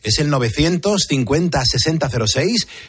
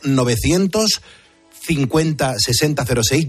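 First: The number is said at a faster pace. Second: The number is said at a slower pace.

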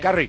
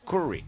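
First: The first vowel sounds like 'a'. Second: The first vowel sounds like 'u'. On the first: "todos decíamos" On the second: "claramente con U, no con A"

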